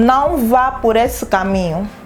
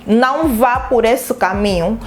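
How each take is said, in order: First: It is said as a gentle, warning request. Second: It is said firmly as a command. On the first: The speaker asks someone not to go that way. "remete-nos a um pedido" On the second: The speaker orders someone not to go that way. "Já não é um pedido, é uma ordem"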